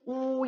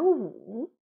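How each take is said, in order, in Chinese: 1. 这个音节读高平调，一声。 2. 这个音节读降升调，三声。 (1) "一声乌乌鸦" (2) "三声呢？"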